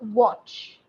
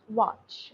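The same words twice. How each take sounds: First: The vowel is a rounded O sound. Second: The vowel is not a rounded O sound. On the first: The speaker calls it right. "it's watch" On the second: The speaker calls it wrong. "not watch"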